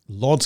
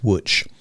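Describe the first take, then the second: First: It is read as the English letters L O D Z. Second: It is said with the Polish pronunciation. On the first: The speaker calls it wrong. "I'm pretty sure I'm pronouncing this wrong" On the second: The speaker calls it right. "It looks like L O D S, but it's pronounced Łódź"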